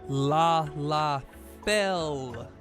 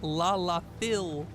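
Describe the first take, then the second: First: The last syllable rhymes with 'bell'. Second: The last syllable rhymes with 'bill'. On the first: The speaker calls it right. "Fell! Like I fell over" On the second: The speaker calls it wrong. "Not la la Phil"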